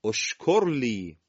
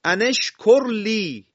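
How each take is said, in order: First: "اشکر" begun alone as oshkor, slow; hamza with damma. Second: High, loud, slow "ان اشکر لی" linked as ane-shkor li; joined recitation. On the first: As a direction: start "اشکر لی" on a rounded o/u. (شروع «اشکر» با همزهٔ مضموم) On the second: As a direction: run "ان" into the sh of "اشکر". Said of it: "کلمهٔ ان رو برداریم". (تلاوت بلند، وصل «ان» به «اشکر») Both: Shown as a demonstration.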